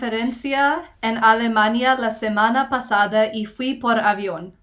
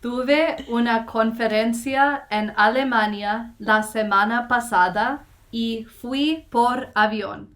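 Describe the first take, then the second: First: It is said at a faster pace. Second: It is said at a slower pace.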